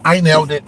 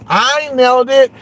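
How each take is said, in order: First: Said in the usual way. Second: Higher and louder, gloating I told you so; triumphant shout. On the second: Real, not acted. Streamer gloating to chat about the rival, triumphant. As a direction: crow the win to viewers. Boasting the prediction came true.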